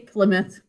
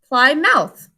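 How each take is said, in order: First: The last syllable is reduced to 'muth'. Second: The last syllable is said like 'mouth'. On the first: It is the everyday spoken form. "But we say Plymouth" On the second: It is said the way it is spelled, to help with spelling. "ow, Plymouth"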